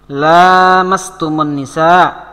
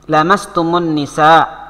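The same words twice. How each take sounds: First: The first syllable has a long vowel. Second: The first syllable has a short vowel. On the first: "dengan bacaan panjang huruf la-nya. Panjang huruf ini" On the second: "Ada yang dibaca pendek kayak gini"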